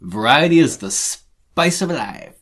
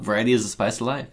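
First: Slow careful reading. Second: Fast throwaway read; quick reading. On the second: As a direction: rattle it off quickly. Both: Shown as a demonstration. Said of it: "It's kinda hard".

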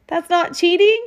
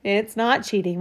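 First: Put-on higher, louder child's anxious question rising on cheating; a boy half-hoping it's allowed; worried boy's question. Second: Smiling reassurance. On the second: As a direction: gently settle his worry with a smile. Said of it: "Mom smiled". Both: A narrator's reading.

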